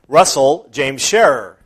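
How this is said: The name is said in a stern, scolding tone. The person named is in trouble. "When my mother called to me because I had done something wrong"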